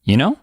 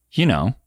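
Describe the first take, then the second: First: "You know" rising at the end; "You know" rising to check understanding; upward intonation. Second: "You know" with a falling end; "You know" falling, asking for agreement; downward intonation. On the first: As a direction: lift KNOW like a question. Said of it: "or like this". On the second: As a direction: let KNOW drop in "You know". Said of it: "if you say it like this". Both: Shown as a demonstration.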